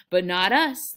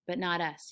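First: Loud, gleeful interjection; delighted, emphatic exclamation; happy cry. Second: Said in the usual way. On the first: A narrator's reading. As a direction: burst in happily, much louder. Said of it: "Lenny cried happily".

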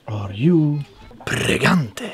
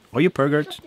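First: "pregante" with rolled r and full ending -AN-teh; drawn-out mock mispronunciation of "pregante"; mangled mispronunciation. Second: "pergert" as two blunt syllables, PER-gert; mock-botched word "pergert", ending in a hard t; mangled mispronunciation. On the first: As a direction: say "pregante" grandly, in three syllables. Deliberately mangled meme question. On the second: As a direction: say "pergert" short, without the rolled r. Second mangling of same question.

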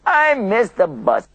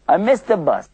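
First: Slow, higher mock whine; upset whine. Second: Mock dismay, a bit higher; upset. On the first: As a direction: drag it out like a sulky complaint. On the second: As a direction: pretend to groan over the missed bus. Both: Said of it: "Sometimes people get upset".

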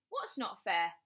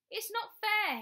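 First: Said in the usual way. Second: Put-on very high, loud childish yell. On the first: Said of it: "she asked". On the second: A narrator's reading. Bradley through the door to his mother, yelling. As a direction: yell it in a full tantrum. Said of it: "he yelled".

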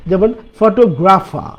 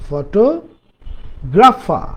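First: Said in the usual way. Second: photographer drawn out slowly, syllable by syllable; slow demo. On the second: Shown as a demonstration. Teacher slowly models photographer for students. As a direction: stretch out photographer for learners.

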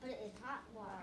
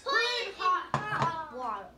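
First: Soft, low, tentative answer; small, hushed reply; too quiet. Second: Raised voice, calling out the answer; louder. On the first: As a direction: answer quietly, barely projecting. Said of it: "Say it louder". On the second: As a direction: belt it out when told to speak up. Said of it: "Say it louder, guys". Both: Real, not acted.

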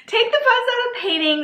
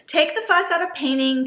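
First: High playful voice. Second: Said in the usual way. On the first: Acted. Rereads the line in a high voice. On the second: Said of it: "why do they have that twice".

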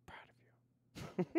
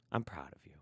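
First: Slow, higher breathy whisper of "Proud of you"; mock tender whisper. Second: Said in the usual way. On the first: Streamer teasingly praising a chatter's thesis, slow high whisper. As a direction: whisper it slowly and higher, hamming up the pride.

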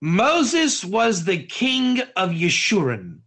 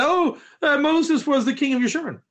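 First: Slow, deliberate delivery of a powerful statement; measured, solemn declaration; weighty pronouncement. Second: Higher, quicker offhand recall; quick, higher-pitched parroting from memory; listener recalling. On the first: Shown as a demonstration. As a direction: hand it over slowly, as something momentous. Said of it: "give over something very powerful". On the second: Acted. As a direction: play a student casually repeating the teacher. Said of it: "What did Rabbi Katz say".

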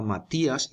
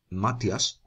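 First: Matías as ma-TÍ-as, three syllables; correct stress on í. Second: Matias as MA-tyas, two syllables; wrong stress. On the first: Teacher showing the accent's effect, Matías as ma-TÍ-as. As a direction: hold the stressed í apart in Matías. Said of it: "para que se diga Matías". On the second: Teacher showing what to avoid, Matias as MA-tyas. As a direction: stress MA and glide through tias in Matias. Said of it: "y no Matias". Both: Shown as a demonstration.

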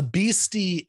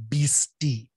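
First: Beastie said slow and clear, PEE-stee; beastie repeated. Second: Beastie said slowly, sounded out as PEE-stee; spelled-out beastie. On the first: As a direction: repeat beastie slowly for learners. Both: Shown as a demonstration. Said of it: "B H I S T I".

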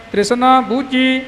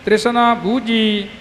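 No difference in how they are said.

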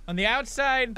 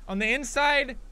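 First: "outside" stressed, pitched up and falling. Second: "inside" stressed, pitched up and falling. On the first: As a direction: lean on "outside" with a falling tune. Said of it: "that's another fucking story". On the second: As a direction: lean on "inside" with a falling tune. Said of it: "Like this". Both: Shown as a demonstration.

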